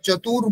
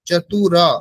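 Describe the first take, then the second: First: The word ends on the r consonant. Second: The word ends with a vowel after r. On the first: The speaker calls it wrong. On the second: The speaker calls it right.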